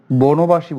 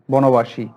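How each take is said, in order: First: বনবাসী mispronounced "bonobashi" with closed o; wrong o vowel. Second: বনবাসী as "bɔnobashi", open first vowel; correct open vowel. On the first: Teacher rejecting a form for students, o-vowel বনবাসী. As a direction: round the first vowel of বনবাসী to o. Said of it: "বলি না". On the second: Teacher telling students what we say, open-vowel বনবাসী. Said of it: "বলি". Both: Shown as a demonstration.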